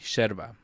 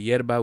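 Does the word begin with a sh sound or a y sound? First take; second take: sh sound; y sound. First: The word begins with a sh sound. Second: The word begins with a y sound. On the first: "We pronounce them like uh we would S H" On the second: "instead of yerba"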